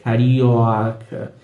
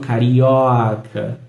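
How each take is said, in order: First: The o vowel is long and open. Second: The same.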